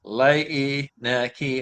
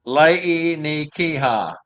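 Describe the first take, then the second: First: "Lei ni Kia" very slow, stretched "Lei"; slow corrected retry. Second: "Lei ni Kiha" very slow, each syllable apart. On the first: Host fixing the reindeer name, slower still. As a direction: drag out "Lei ni Kia" carefully. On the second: Host sounding out the reindeer name, very slow. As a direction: spell out "Lei ni Kiha" slowly. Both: Shown as a demonstration. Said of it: "broke down into syllables".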